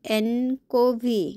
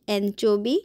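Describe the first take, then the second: First: The middle consonant is a 'k' sound. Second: The middle consonant is a 'ch' sound. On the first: The speaker calls it wrong. "ওইটাকে আমি বারবার বলেছিলাম fish অ্যানকোভি" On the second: The speaker calls it right. "ইংলিশে fish অ্যানচোভি syrup"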